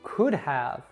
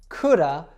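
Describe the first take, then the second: First: The word have is pronounced in full. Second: Have is reduced to a short uh sound. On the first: The speaker calls it wrong. "they taught you to always say have like this" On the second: The speaker calls it right. "It should be ... coulda"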